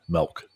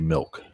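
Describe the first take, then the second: First: The vowel sounds like 'eh', as in melk. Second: The vowel sounds like 'ih', as in milk. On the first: This is how many locals say it. "a lot of Marylanders will say M E L K" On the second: This is the speaker's own way of saying it. "but I say milk"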